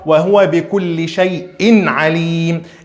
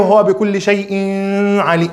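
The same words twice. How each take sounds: First: The n sound is pronounced clearly and separately. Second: The n sound is blurred and not clear. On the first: The speaker calls it right. "tem que falar" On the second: The speaker calls it wrong. "não é ... errado"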